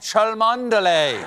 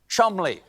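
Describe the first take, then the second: First: The name is said with every spelled syllable. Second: The name is said as two short syllables. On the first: The speaker calls it wrong. "I pronounced incorrectly" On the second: The speaker calls it right. "It is, in fact, pronounced Chumley"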